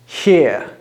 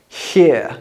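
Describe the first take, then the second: First: One vowel sound with an R at the end. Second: One vowel sound with an R at the end.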